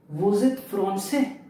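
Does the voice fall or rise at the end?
rises. The voice rises at the end.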